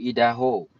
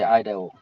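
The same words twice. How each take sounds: First: Idaho said the French way, stress on the end. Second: Idaho said the English way, EYE-da-ho. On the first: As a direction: Idaho pronounced as in French, no final glide. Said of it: "In French, you say Idaho". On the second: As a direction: Idaho with English diphthong, stress on the first syllable. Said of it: "In English, you say Idaho". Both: Shown as a demonstration.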